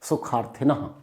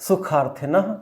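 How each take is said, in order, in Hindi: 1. यह शब्द छोटी फुसफुसाती 'ह' की आवाज़ के साथ खत्म होता है। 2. यह शब्द छोटी फुसफुसाती 'ह' की आवाज़ के साथ खत्म होता है।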